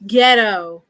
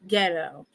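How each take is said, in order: First: Louder, scornful one-word put-down; scornful verdict. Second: Softer, lower dismissive repeat; muttered verdict. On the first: Streamer judging the computer, louder scornful put-down. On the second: Streamer repeating the verdict to himself, softer and resigned. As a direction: say it again under the breath, resigned. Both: Real, not acted.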